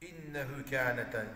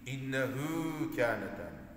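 First: The vowel of hu is short. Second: The vowel of hu is lengthened. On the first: The speaker calls it wrong. "innehu kâneten değil" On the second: The speaker calls it right. "yazıda uzatan bir vav yoksa da hü'deki kural"

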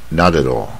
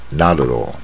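No difference in how they are said.

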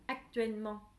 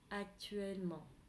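First: The word is said harshly and forcefully. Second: The word is said softly and gently. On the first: The speaker calls it wrong. "không phải actuellement" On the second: The speaker calls it right. "Nó nhẹ nhàng hơn rất nhiều"

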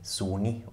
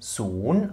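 First: The word ends on an added vowel sound. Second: The word ends on a consonant sound. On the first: The speaker calls it wrong. "auch hier nicht Soni" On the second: The speaker calls it right. "Dann haben wir Sohn"

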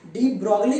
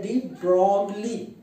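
First: The 'o' vowel is said short. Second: The 'o' vowel is drawn out long. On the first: The speaker calls it wrong. "डी ब्रोगली नहीं बोला जाता है" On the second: The speaker calls it right. "ओ को थोड़ा खींचा जाता है"

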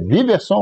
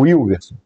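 First: The name begins with a V sound. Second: The name begins with a U-like glide sound. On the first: "W tem som de V" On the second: "tem som de U"

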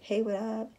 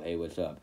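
First: It is said in a higher voice. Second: It is said in a low voice.

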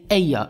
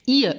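First: The word sounds like 'ay-er', a gliding vowel. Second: The word sounds like 'eer', one long vowel. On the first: This is the form other native speakers use. "other people would say" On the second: This is a variant some native speakers use. "some people will say"

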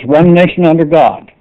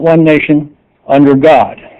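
First: It is said without a pause after 'nation'. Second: There is a pause after 'nation'. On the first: The speaker calls it right. "there is no comma after one nation" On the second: The speaker calls it wrong.

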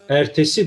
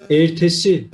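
First: The first E is middle. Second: The first E is closed. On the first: "orta bir E var" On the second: "kapalı"

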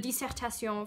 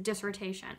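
First: The word is said with a French pronunciation. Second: The word is said with an American pronunciation. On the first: It names a long written exam. "I'm using the French pronunciation of the word" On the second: It names a doctoral thesis. "as Americans, we refer to as the dissertation"

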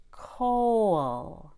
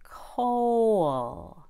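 Both takes have the same delivery.

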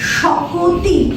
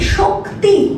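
First: A vowel is inserted between k and t. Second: The k and t sounds are joined directly.

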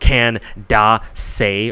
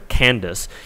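First: The name is said with three syllables. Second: The name is said with two syllables. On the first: "it's like 3 syllables" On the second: "insisting on calling her Candace"

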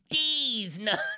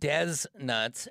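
First: The first word has a long 'ee' sound. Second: The first word has a short 'e' sound. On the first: The speaker calls it right. "no, it's D's Nuts" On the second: The speaker calls it wrong. "Someone was probably calling him Des Nuts"

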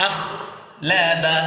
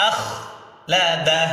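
No difference in how they are said.

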